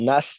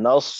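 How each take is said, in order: First: নাস said "naas", light vowel and thin s; wrong thin sin. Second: নাস said "nas" with a heavy, full Arabic sad; correct heavy sad. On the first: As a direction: say নাস thinly, as the mistake. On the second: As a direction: say নাস thick, back-tongued s. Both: Shown as a demonstration. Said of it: "নাস যেন না হয়".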